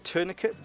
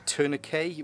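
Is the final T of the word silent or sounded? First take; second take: sounded; silent. First: The final T is pronounced. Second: The final T is silent. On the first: "some people like to pronounce the T on the end" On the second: "which the vast majority of the world call them"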